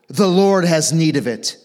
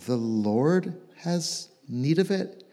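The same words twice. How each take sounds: First: It is said sternly and strongly, as a command. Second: It is said unsurely, as a question.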